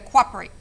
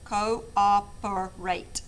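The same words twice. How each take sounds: First: The word is said with three syllables. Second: The word is said with four syllables. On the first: The speaker calls it wrong. "like you want to just do it like um, three syllables" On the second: The speaker calls it right. "So four syllables"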